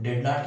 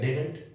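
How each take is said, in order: First: It is said as two full separate words. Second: It is said as one contracted word. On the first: "ये डिड नॉट इसका full full form है" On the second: "short form"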